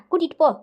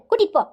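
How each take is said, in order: First: Said in the usual way. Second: கூட்டிட்டு snapped higher and louder; louder repeat. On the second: Acted. Mother repeats the order to son, louder and higher. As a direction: bark கூட்டிட்டு போ impatiently, higher.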